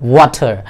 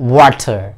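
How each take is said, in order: First: It is said in a British accent. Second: The same.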